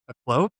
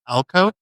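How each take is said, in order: First: It begins with a weak 'uh' sound. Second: It begins with a clear 'al' sound. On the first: The speaker calls it wrong. "I was really hoping that you'd say a clove first" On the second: The speaker calls it right. "now you say alcove"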